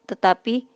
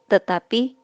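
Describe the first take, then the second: The two takes are said the same way.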